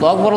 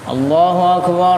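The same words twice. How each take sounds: First: It is said very quickly and hurried. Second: The vowels are stretched out very long. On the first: "cepet-cepet banget" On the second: "sampai setengah menit ... panjang amat"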